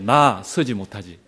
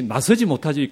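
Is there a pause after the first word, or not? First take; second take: pause; no pause. First: There is a pause after the first word. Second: The words run together without a pause. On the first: I cannot stand. The speaker calls it right. "끊어서 읽으셔야 돼요" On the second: I cannot step forward. The speaker calls it wrong. "그렇게 들으신 건 아니죠?"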